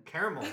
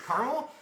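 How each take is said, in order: First: "Caramel" with an opening like "care"; "Caramel" starting CARE, not CAR; CARE-uh-mel pronunciation. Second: Questioning "Caramel" said as CAR-mul, higher and rising; "Caramel" as CAR-mul, asked in surprise; CAR-mul pronunciation. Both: Shown as a demonstration. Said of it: "how everybody pronounces it".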